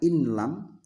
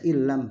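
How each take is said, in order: First: A separate n sound is heard before l. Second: The n merges fully into the l sound. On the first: The speaker calls it wrong. "bukan inlam" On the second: The speaker calls it right. "perhatikan baca illam"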